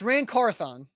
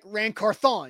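First: The last syllable sounds plain English. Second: The last syllable sounds French, like garçon. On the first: The speaker calls it right. "It's Rand Carthon" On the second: The speaker calls it wrong. "You like put a little French like garçon on it"

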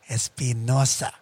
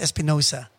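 First: The name is said with a Spanish pronunciation. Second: The name is said with an English pronunciation. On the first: The speaker calls it right. "that's a Spanish last name. And it's pronounced Espinosa" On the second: The speaker calls it wrong. "He would say, Preston Chase Espinosa"

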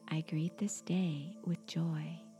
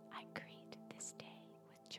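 First: It is spoken in a normal, voiced tone. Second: It is spoken in a soft whisper. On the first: "in your natural speaking voice" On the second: "Now repeat the affirmation in a whisper"

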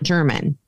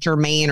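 First: It is pronounced like the word German. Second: It is pronounced like Germain. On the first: The speaker calls it wrong. "But it's not German" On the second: The speaker calls it right. "the way they were pronouncing it in the videos, it's like Germain"

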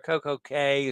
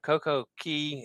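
First: The last word rhymes with 'say'. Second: The last word rhymes with 'see'. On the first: The speaker calls it wrong. "as they call it" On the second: The speaker calls it right. "It should all be Key"

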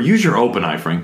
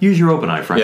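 First: It is said in a mean, mocking tone. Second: It is said in a plain, matter-of-fact tone.

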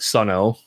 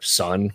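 First: The name ends with an extra O sound. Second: The name is a single syllable, Sun. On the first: The speaker calls it wrong. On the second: The speaker calls it right.

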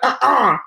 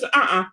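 First: It is said harshly, like yelling. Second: It is said calmly, without emotion.

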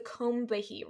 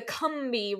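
First: The name is said the non-Southern way. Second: The name is said the Southern way. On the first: "You don't have a Southern accent like myself" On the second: "If you have a Southern accent"

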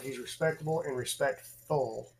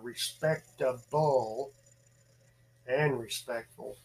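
First: It is said at a normal speed. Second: It is said more slowly.

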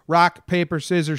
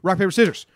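First: The three words are said slowly, building up. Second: The three words are rushed out very fast. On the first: This is how the game is played on the East Coast. "it's all about the buildup" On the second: This is how the game is played in California. "they go really fast, like you don't have time to think"

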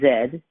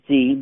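First: The letter is said the Canadian way, zed. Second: The letter is said the American way, zee.

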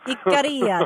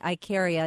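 First: The name is said with a musical, lilting melody. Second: The name is said plainly, without a melody. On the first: The speaker calls it right. "There you go. Oh, that's far more fun" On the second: The speaker calls it wrong. "I'm saying Ikaria, and you're saying it so much more in such a better way"

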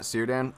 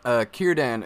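First: The name begins with an S sound. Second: The name begins with a hard K sound. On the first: The speaker calls it wrong. "not Círdan. ... a C is never pronounced like an S" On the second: The speaker calls it right. "Círdan is what it is"

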